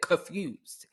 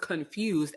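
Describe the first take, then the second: First: The N sound in the word is left out. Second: The N sound in the word is pronounced. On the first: The speaker calls it wrong. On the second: The speaker calls it right.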